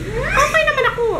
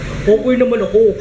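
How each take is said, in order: First: The voice is small and high. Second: The voice is big and deep. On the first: The speaker calls it wrong. "hindi pala dapat ganyan boses" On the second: The speaker calls it right. "Dapat malaki"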